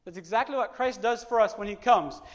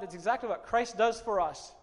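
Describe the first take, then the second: First: Louder, pressing the point home; building emphasis. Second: Said in the usual way. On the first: Shown as a demonstration. Preacher repeating his point to the congregation with rising force. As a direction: lift the line into a preached climax.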